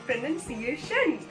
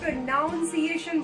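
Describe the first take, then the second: First: The second syllable sounds like 'nun'. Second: The second syllable sounds like 'nown'. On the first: The speaker calls it right. "उसका सही प्रोनाउंसिएशन होता है" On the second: The speaker calls it wrong. "बहुत सारे लोग इसको प्रोनाउंसिएशन बोलते हैं जो कि गलत है"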